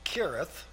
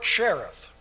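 First: The name begins with a hard k sound. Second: The name does not begin with a k sound. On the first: The speaker calls it right. "It really should be pronounced Kirith" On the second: The speaker calls it wrong. "You'll excuse me if I pronounce it that way. I know that's not correct"

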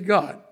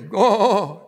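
First: It is said plainly in a normal voice. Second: It is drawn out in an exaggerated preacher voice.

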